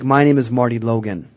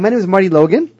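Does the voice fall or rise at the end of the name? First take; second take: fall; rise. First: The pitch falls at the end of the name. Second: The pitch rises at the end of the name. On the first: The speaker sounds confident and professional. The speaker calls it right. "It's downward inflection" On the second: The speaker sounds unsure of himself. The speaker calls it wrong. "I don't sound real confident"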